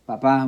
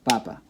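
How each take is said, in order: First: The stress is on the last syllable. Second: The stress is on the first syllable. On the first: It means dad. "the pronunciation is on the last" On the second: It means potato or the Pope. "where it should be on the second to last"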